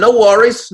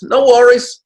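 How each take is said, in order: First: High, loud Aussie "No worries" with a rising end; rising, cheery Aussie "No worries"; Aussie accent. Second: Even higher, loud Aussie "No worries" with the push on "worries"; stretched, higher Aussie "No worries"; Aussie accent. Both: Pretend. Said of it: "your best Aussie accent".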